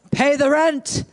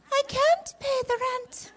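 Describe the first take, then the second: First: Menacing melodrama villain demanding rent; mustache twirling villain. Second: High wailing heroine voice; damsel in distress. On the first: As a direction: sneer it like a stage villain. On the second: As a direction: cry it out like a helpless maiden. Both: Acted. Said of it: "So here we go".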